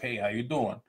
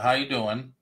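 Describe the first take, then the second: First: It is a suggestive, flirtatious greeting. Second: It is a plain, friendly greeting.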